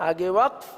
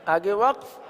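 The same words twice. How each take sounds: The two takes are said the same way.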